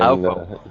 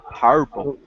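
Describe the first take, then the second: First: The word is slurred in a put-on street style. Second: The word is pronounced clearly and plainly.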